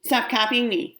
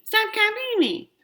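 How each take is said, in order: First: Said in the usual way. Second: Much higher, slower, whiny parrot of her words; mocking copy. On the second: Little sibling mocks sister's words back, squeaky and slow. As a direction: mimic her to annoy her. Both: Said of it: "I copy her".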